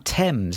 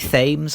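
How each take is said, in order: First: It is said like the British river name. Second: It is said the different American way. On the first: "because that is the name of the river in the U K" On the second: "I don't know whether the U S um, audience pronounce okay. it differently"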